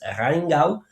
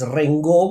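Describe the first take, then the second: First: The name is pronounced the German way. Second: The name is pronounced as if it were French. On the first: The speaker calls it right. "es Rheingau" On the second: The speaker calls it wrong. "muchos tratan de pronunciar esto como si fuera francés"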